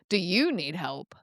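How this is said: It sounds teasing and mocking.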